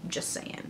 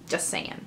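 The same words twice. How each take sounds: First: Whispered aside. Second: Hushed, trailing aside; quiet aside. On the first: To viewers about Michonne, a secret whisper. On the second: To viewers about Michonne, hushed aside. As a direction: drop to a hush. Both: Shown as a demonstration.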